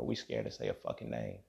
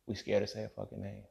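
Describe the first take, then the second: First: Much lower, hushed; low murmur. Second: Said in the usual way. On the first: Real, not acted. Vlogger mocking fear of naming names, low and hushed. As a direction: drop it deep and quiet.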